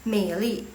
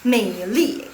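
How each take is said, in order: First: The second syllable is light and toneless. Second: The second syllable has a strong falling tone. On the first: "ini yang qingsheng, yang tidak ada nada" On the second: "yang punya nada keempat"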